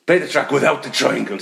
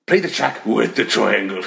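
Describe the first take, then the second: First: Said in the usual way. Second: Slow, deliberate "with", held out; measured command, dwelling on "with"; stress on "with". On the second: Retold or imitated. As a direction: lean heavily on "with" for contrast. Second request, contrasted with without.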